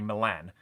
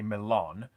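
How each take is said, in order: First: It is said the British way. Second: It is said the American way. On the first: "whereas I would say Milan" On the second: "you guys would probably say Milan"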